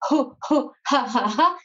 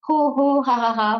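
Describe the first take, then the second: First: It is pushed out as breath from the belly. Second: It is said aloud with a full voice.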